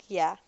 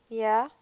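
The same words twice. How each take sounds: First: Yeah. falling down, settled; firm falling answer. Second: Yeah? rising up as a question; questioning rise. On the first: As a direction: state Yeah. with a flat drop. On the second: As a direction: ask Yeah? with an upward lift. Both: Acted.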